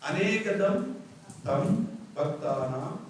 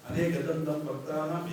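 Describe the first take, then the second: First: It is split as 'anekadam tam'. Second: It is said as one word, 'anekadantam'. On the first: Many devotees worship the single-tusked one. The speaker calls it right. "ഇന്ദ ത ദ മൂന്ന് അക്ഷരങ്ങൾ വ്യത്യാസമുണ്ട്" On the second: One with many teeth praises the single-tusked one. The speaker calls it wrong. "എല്ലാവരും പറയുന്നതാണ്"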